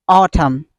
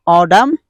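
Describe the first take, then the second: First: "autumn" with a clear T, falling; basic pronunciation. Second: "autumn" as AW-dum with rising end; American pronunciation. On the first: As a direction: say "autumn" as AW-tum. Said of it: "And basic". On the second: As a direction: flap the T of "autumn", lift the end. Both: Shown as a demonstration.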